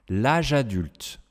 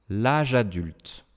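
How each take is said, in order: No difference in how they are said.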